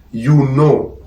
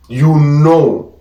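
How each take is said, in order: Both takes have the same delivery.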